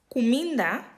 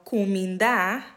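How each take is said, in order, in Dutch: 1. De laatste klinker is kort en onbeklemtoond. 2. De laatste klinker is lang en beklemtoond. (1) "zonder accentteken" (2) "Cominda heeft dus een lange klank aan het einde"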